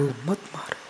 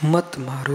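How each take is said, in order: First: मत मारो dropped to a near hush; skull pleading softly. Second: Said in the usual way. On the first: Acted. Skull in the cremation ground begging a walker, hushed. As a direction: let मत मारो fade almost to nothing. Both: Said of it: "खोपड़ी बोल उठी".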